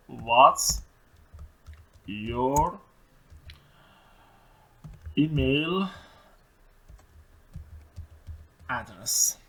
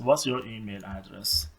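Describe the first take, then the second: First: What's your email address, each word apart with long pauses; dictation. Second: Slow, careful question; slow model question. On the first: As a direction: dictate one word at a time. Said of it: "word by word dictation". (دیکته کلمه به کلمه با مکث) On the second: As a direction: read it slowly for the class. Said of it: "پس". (پرسش آهسته و شمرده) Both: Shown as a demonstration.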